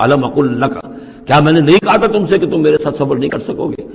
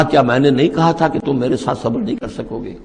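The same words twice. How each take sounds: First: A light rebuke, stress on تھا; mild scolding. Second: Said in the usual way. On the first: Shown as a demonstration. Khidr rebuking Moses for asking again, mild scolding. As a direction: scold him gently but firmly. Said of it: "ذرا ڈانٹ کے انداز میں کہا". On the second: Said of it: "ذرا ڈانٹ کے انداز میں".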